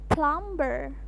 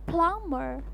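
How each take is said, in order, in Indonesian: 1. Bunyi B terdengar setelah M. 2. Tidak ada bunyi B yang terdengar setelah M. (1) "biasanya kita sebutin plumber. Plumber. No, it is wrong, totally wrong" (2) "Seharusnya huruf B tidak dibaca sehingga menjadi plumber"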